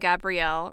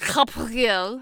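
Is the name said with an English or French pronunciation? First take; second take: English; French. First: The name is said with an English pronunciation. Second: The name is said with a French pronunciation. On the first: "who I will be calling Gabrielle" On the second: "which is how the French seem to say it"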